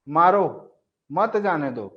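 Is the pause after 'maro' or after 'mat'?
after maro. There is a pause right after 'maro'. The other person should be hit.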